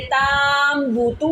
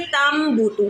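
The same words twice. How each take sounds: First: ताम बूतू with a long drawn AA in ताम; slow, chanted ताम बूतू with the first vowel lengthened; wrongly stretched vowel. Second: तम बूतू with a short A and a held, hummed M; तम बूतू, nasal hold on M only; short vowel with ghunna. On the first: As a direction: stretch the ता very slowly before बूतू. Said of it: "आप इसको ऐसे नहीं पढ़ेंगे". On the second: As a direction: keep the ता short and hum the M of तम before बूतू. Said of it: "पहले लफ्ज़ ता को नहीं खींचेंगे". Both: Shown as a demonstration.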